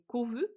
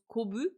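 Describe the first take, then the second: First: The middle consonant is a V sound. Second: The middle consonant is a B sound. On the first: This is how it is said in French. "en français c'est kovu" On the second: This is how it is said in Japanese. "elle le prononce kobu"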